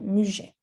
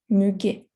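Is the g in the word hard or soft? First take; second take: soft; hard. First: The g is said as a soft sound. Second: The g is said as a hard sound. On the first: "If there were no U, you would say muget" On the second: "so you have to say g, muguet"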